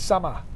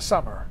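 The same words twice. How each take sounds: First: The word ends with an ah sound, no R. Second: The word ends with a pronounced R sound. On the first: The speaker calls it right. "No, no E R. There's an A" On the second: The speaker calls it wrong. "it's not summer"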